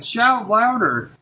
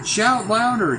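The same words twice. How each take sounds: First: Louder, higher and slow, jeering; hammed-up sneering dare; mocking taunt. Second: Taunting. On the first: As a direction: goad them hard with scorn. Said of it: "he's taunting them". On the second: Acted. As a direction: needle them, a jeering dare. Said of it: "Elijah began to taunt them".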